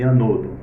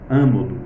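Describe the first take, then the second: First: The stress is on the second syllable. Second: The stress is on the first syllable. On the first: "na paroxítona" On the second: "tanto faz falarmos anodo como ânodo"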